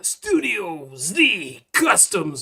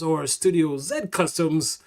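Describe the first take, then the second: First: Z is said 'zee', the American way. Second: Z is said 'zed', the Canadian way.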